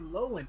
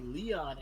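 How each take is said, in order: First: The name is said in a funny, altered way. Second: The name is said the usual way. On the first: "I like saying words in a different way. I say Lowen" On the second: "I don't say Leon S. Kennedy"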